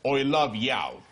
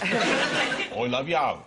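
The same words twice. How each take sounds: First: It is said in the speaker's usual accent. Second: It is said in a Birmingham accent.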